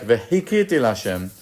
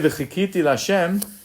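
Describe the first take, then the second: First: The verb begins with a soft h sound. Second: The verb begins with a throaty ch sound. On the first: I hit the Lord. "you would pronounce it like v'hikiti l'Hashem" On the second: I hoped to the Lord. "when you say v'chikiti l'Hashem"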